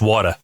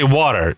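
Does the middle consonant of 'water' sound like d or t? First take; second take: t; d. First: The middle consonant is a clear t sound. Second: The middle consonant sounds like a d. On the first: This is the Rhode Island way of saying it. "Rhode Island is water. It's W A T A H" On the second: This is how the other person says it. "you say water, so it's like W A D D E"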